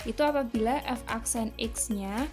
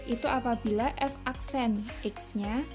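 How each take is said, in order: Both takes have the same delivery.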